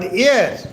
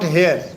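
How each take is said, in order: First: The word starts with a vowel sound. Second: The word starts with an h sound. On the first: The speaker calls it right. "but air" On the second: The speaker calls it wrong. "the pronunciation is not here"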